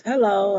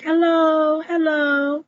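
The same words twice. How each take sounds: First: Said in the usual way. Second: Imitated calling out. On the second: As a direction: call out high, as if seeking someone in a shop. Dee calling out in shop.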